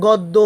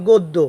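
First: গদ্য with an open "aw", "gawddo"; wrong pronunciation. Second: গদ্য with a closed o, "goddo"; correct pronunciation. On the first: Teacher shows what not to say, গদ্য mispronounced "gawddo". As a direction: open up the first vowel of গদ্য. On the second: Teacher answers the question, গদ্য pronounced "goddo". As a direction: round the first vowel of গদ্য to o. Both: Shown as a demonstration. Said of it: "না বলে হবে কি".

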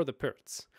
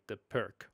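First: Pirc with a ts ending; Pirc as "perts". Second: Pirc with a hard k ending; Pirc as "perk". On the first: Host asks viewers, offering both names, Pirc as "perts". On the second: Host asks viewers, offering both names, Pirc as "perk". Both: Shown as a demonstration. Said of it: "Whatever it is".

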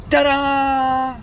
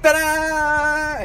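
First: High, loud triumphant reveal; excited ta-da. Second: High, loud showman reveal; excited ta-da. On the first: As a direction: announce it like a magic trick. Reveals the toy inside egg. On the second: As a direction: present it proudly. Second reveal of toy. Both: Real, not acted.

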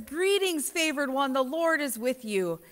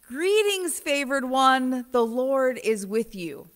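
First: Soft, lilting angel's greeting; poetic angel greeting. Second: The greeting retold, less lilting; just say it as the angel; plainer angel greeting. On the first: Retold or imitated. Mimicking the pretty gospel angel to the congregation, softly lilting. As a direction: make it sound pretty and poetic. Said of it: "the way they say that the angel says". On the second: Retelling the angel's words to Mary, simply. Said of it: "the angel says".

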